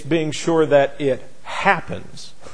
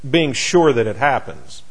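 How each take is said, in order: First: The word happens carries strong emphasis. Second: The word happens carries no special emphasis.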